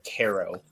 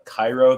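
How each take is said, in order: First: It uses the locals' own pronunciation of the name. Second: It uses the common outsider pronunciation of the name. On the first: This is how people who live there say it. "they call it Caro" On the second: This is how people from elsewhere say it. "locals don't even call it Cairo"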